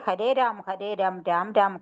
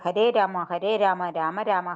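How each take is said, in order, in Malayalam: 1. Rama അവസാനം സ്വരമില്ലാതെയാണ് പറയുന്നത്. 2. Rama അവസാനം ഒരു സ്വരത്തോടെയാണ് പറയുന്നത്. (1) "രാം രാം എന്ന് മാത്രമേ പറയൂ" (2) "ഞാൻ ആദ്യം രാം എന്ന് രാമരാമ എന്ന് പറഞ്ഞു"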